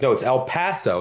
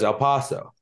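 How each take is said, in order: First: El Paso with the a as in cat; brother's correction. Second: El Paso with a broad ah in Paso; girlfriend's El Paso. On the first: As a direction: correct her firmly. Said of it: "my brother corrected her". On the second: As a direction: quote her El Paso, rising. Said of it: "She says". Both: Retold or imitated.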